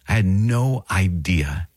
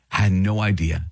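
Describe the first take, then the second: First: Drawn out, NO stressed; slow it down, lean on no; I had no idea, slowly, with no stressed; slow and emphatic. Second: Said in the usual way. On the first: Shown as a demonstration.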